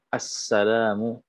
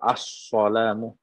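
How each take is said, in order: First: The s sound is a clear plain s. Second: The s sound is a heavy emphatic s. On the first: The speaker calls it right. "Jadi harus jelas sinnya" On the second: The speaker calls it wrong. "ada sod, ... ini tidak sah juga"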